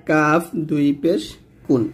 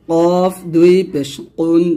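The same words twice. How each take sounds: First: Light k in কুন; light Arabic k; thin kaf. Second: Heavy back q in কুন; slow heavy Arabic q; thick qaf. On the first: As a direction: say কাফ and কুন with a thin, ordinary k. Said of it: "কাফটা কিন্তু পাতলা করে". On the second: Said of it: "এই কফটা কিন্তু মোটা করে". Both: Shown as a demonstration.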